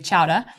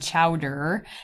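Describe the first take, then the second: First: It is said in a Boston accent. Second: It is said in a Wisconsin accent.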